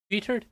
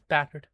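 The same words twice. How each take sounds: First: "Bittered?" said with an i as in bit, rising like a question; questioning mispronunciation. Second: "Battered." said with a clear a as in bat, falling; corrected pronunciation. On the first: To the mate who misheard "battered", a puzzled "Bittered?". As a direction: query the odd word "Bittered?", vowel as in bit. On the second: Correcting his own slip to the stream, a firm "Battered.". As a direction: put it right: "Battered.", a as in bat, settled. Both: Shown as a demonstration.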